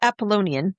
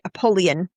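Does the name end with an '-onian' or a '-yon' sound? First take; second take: -onian; -yon. First: The name ends with an '-onian' sound. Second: The name ends with a '-yon' sound. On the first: The speaker calls it wrong. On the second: The speaker calls it right.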